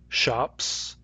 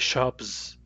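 First: The word ends with a hissing S sound. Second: The word ends with a buzzing Z sound. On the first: "the words in the top row have S" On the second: "if I say shops with a Z instead of an S"

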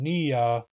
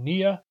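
First: The vowels are said long. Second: The vowels are said short. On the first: "the Nuchanal pronunciation Nia" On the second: "The English pronunciation Nia"

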